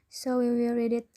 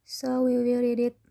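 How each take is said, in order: The two takes are said the same way.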